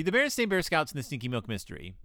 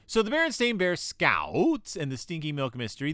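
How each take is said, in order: First: Said in the usual way. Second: Exaggerated, wavering "Scouts" in the title; playful title emphasis. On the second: Shown as a demonstration. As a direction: stretch "Scouts" into a long dip and rise. Title said oddly, then repeated normally.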